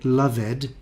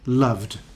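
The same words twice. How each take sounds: First: The ending is said as an extra syllable. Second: The ending adds no extra syllable. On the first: The speaker calls it wrong. "it's different from invited because you don't say loved" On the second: The speaker calls it right. "you say loved"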